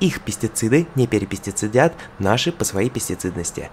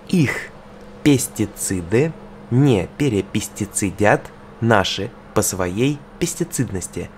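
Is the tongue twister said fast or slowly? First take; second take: fast; slowly. First: It is said at a faster pace. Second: It is said at a slower pace.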